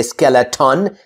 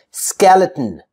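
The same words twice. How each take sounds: First: Skeleton as skel-e-TAWN; over-full last syllable. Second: Skeleton as skel-it-n; vowel-less ending. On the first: Teacher showing what to avoid, skeleton with full "tawn". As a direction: give skeleton a full O in "ton". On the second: Teacher modelling natural speech, Skeleton with bare N ending. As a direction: drop the last vowel in Skeleton, T straight into N. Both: Shown as a demonstration. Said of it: "I don't say skeleton".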